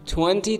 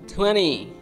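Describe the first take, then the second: First: The T after the N is pronounced. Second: The T after the N is silent.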